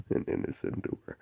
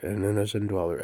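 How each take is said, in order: First: Whispered and softer; whispered quote of an innocent dweller. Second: Said in the usual way. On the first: Retold or imitated. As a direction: breathe it out as a secret. Whispered quote, then echoed.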